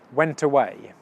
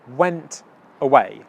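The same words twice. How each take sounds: First: The words are said quickly and run together. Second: The words are said slowly and kept apart.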